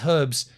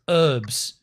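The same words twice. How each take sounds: First: The word begins with a clear H sound. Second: The word begins with no H sound. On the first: The speaker calls it right. "You should say" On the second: The speaker calls it wrong. "why do you dudes change the pronunciation of the letter in random words?"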